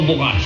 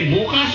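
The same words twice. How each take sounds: First: The stress is on the first syllable. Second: The stress is on the second syllable. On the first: It means tomorrow. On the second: It means open.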